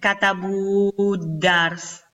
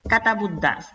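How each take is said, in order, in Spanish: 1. La vocal antes de la d se pronuncia larga. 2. La vocal antes de la d se pronuncia corta. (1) "No se pronuncia katabudars" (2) "sino un solo tiempo"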